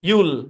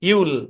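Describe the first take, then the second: First: It is squeezed into one short contracted syllable. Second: It is squeezed into one short contracted syllable.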